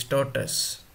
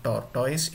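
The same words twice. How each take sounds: First: "tortoise" said TOR-tus; correct tortoise. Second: "tortoise" with the mistaken -toys ending; mispronounced tortoise. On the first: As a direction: make the end of "tortoise" a short "tus". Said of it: "it is tortoise". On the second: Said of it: "it is a big mistake". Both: Shown as a demonstration.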